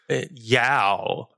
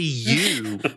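First: The vowel rhymes with 'cow'. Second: The vowel rhymes with 'too'. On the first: The speaker calls it wrong. "the one it was pronounced Yow. Yow over and over" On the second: The speaker calls it right. "that's supposed to be you"

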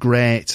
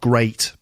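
First: The vowel is said in a northern English accent. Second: The vowel is said in a standard English accent. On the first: "but great" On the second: "not great"

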